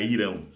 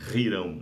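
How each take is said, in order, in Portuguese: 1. O nome começa diretamente com uma vogal. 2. O nome começa com uma consoante gutural. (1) "mas a pronúncia com H" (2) "Ou Rirão"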